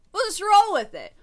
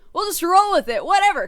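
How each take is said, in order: First: Said much higher and louder, giving up; a loud, high shrug of a line; loud, high resignation. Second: Higher and louder, shrugging it off; a loud, high give-up; loud, high resignation. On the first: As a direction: throw up your hands and shout it. Repeated in raised voice. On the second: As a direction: toss it away at full voice. Repeats, louder still. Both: Real, not acted.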